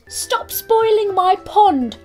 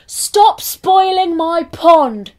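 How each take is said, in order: First: It is said calmly, without shouting. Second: It is shouted loudly.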